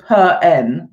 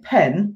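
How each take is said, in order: First: An extra 'uh' vowel follows the p sound. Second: The p is crisp, with no added vowel. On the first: The speaker calls it wrong. "you don't go per n" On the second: The speaker calls it right. "It's almost a whisper when you say it"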